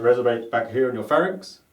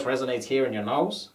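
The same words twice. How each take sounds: First: Throaty back placement demo; pharyngeal resonance. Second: Nasal placement demo; nasal resonance. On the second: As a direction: voice placed up in the nose. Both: Shown as a demonstration.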